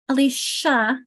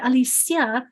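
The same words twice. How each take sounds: First: The name is said with an American English sound. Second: The name is said with a Latin-language sound. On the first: This is the anglicized form of the name. "that's a very Americanized, English, uh, ang anglicized version" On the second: This is the original form used in Latin countries. "Latin countries had Alicia"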